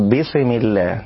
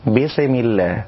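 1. تنتهي السين بانفكاك يشبه الحركة فيه قلقلة. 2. تنتهي السين بانفكاك يشبه الحركة فيه قلقلة.

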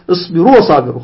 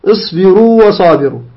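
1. الواو تُدغم في الكلمة التي بعدها. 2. الواو الممدودة تُمَدّ قبل الكلمة التي بعدها. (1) "لا نقول اصبروا وصابروا، خطأ، لا نضيمها" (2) "لا نضيمها"

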